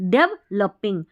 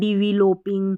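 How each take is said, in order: First: The middle syllable is said with a reduced 'lu' vowel. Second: The middle syllable is said with a full 'lo' vowel. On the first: The speaker calls it right. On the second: The speaker calls it wrong.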